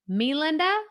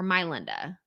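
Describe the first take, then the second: First: The first syllable sounds like 'me'. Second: The first syllable sounds like 'my'. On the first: "I want to say me Linda or my Linda" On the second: "I want to say me Linda or my Linda"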